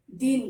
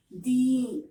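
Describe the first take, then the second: First: दिन with a short, clipped i vowel. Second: दीन with the ii vowel drawn out long. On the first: Teacher to pupils contrasting vowel length: short i. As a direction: say दिन with a quick short i, not stretched. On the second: Teacher to pupils contrasting vowel length: long ii. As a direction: stretch the ii in दीन clearly. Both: Shown as a demonstration. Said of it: "ये हो गया दिन और ये दीन".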